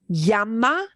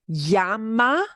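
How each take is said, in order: Both takes have the same delivery.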